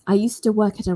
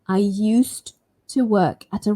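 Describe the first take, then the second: First: Said fast with the d sound dropped. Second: Said slowly with the d sound clearly pronounced. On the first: "if I want to speak quite fast, I can drop it" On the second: "nice and slow"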